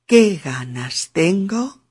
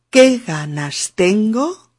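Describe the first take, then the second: First: Lento, golpe en qué; unidad rítmica. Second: Lento, golpe en qué; qué ganas tengo, lento y con golpe en qué; unidad rítmica. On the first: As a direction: repite qué ganas tengo, lento, acento en qué. (modelo lento marcando el ritmo) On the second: (marcando el ritmo, despacio) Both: Shown as a demonstration. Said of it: "si lo digo así".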